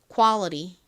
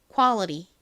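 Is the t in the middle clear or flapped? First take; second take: flapped; flapped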